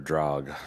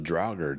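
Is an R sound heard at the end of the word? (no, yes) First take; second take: no; yes. First: The word ends without any R sound. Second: The word ends with an audible R sound.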